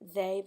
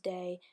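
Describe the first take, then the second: First: The word begins with a soft th sound. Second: The word begins with a hard d sound.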